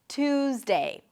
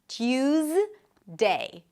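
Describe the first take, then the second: First: No y sound follows the t. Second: A y sound follows the t. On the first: "you can also drop the y sound" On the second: "The first one is with y"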